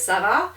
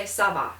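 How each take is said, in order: First: "Ça va?" rising at the end; question tune. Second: "Ça va." settling at the end; statement tune. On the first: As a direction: lift VA into a question. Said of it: "phrased as a question". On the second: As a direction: answer "Ça va." as a statement, no rise. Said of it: "and a statement". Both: Shown as a demonstration.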